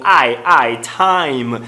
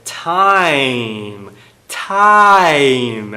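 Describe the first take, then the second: First: Time with the full a-i glide; careful diphthong time. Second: Time said as tam, no glide; monophthong. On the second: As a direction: flatten the vowel of time to a. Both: Shown as a demonstration. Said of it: "É um ditongo".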